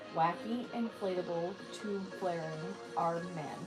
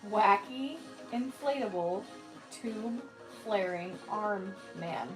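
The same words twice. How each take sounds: First: The phrase is said slowly. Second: The phrase is said very slowly. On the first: "Can you say that slow?" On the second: "Say it really, really slow"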